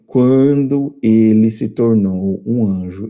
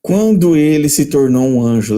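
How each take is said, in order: First: Deliberate, drawn-out reading for emphasis; slow emphatic rereading. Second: Said in the usual way. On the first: Shown as a demonstration. Preacher rereads a quotation so nobody misses it, slow and emphatic. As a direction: read it slowly, spacing out each word. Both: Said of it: "leia de novo".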